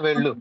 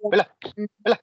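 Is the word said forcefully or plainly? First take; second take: plainly; forcefully. First: The word is said in a plain, ordinary way. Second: The word is said forcefully with strong emphasis. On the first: It is a simple instruction to go. "ఒక మామూలుగా వెళ్ళు" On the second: It is an insistent command to go. "కొద్దిగా గట్టిగా నొక్కి చెప్పినట్టు"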